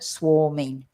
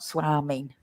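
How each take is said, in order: First: The first vowel sounds like 'or'. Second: The first vowel sounds like 'ar'. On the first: The speaker calls it right. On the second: The speaker calls it wrong.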